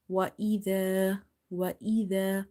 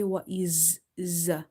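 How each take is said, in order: First: Tongue between the teeth on the dh of idha, long ee before it; tongue-tip dh. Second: Wa is z with a long buzzing z instead of dh; wrong buzzing z. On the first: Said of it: "stop that airflow by keeping your tongue little bit out". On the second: Teacher shows what not to say, buzzing z. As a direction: let the z of wa is z buzz on. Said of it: "So this buzzing sound". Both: Shown as a demonstration.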